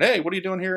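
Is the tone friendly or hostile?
friendly. It is said in a friendly, welcoming tone.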